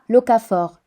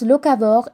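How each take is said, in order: First: The word ends with a 'fort' sound. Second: The word ends with a 'vore' sound. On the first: The speaker calls it wrong. "et pas locafort" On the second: The speaker calls it right. "ça se prononce locavore"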